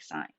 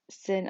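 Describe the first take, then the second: First: "sine" said like "sign"; "sine" to rhyme with "line"; correct pronunciation. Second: "sin" said as spelt, with a short i; "sin" to rhyme with "pin"; abbreviation as written. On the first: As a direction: say "sine" with a long i, silent e. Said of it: "you are pronouncing it correctly". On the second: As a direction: say "sin" like the word for wrongdoing. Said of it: "make sure you are pronouncing it correctly". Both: Shown as a demonstration.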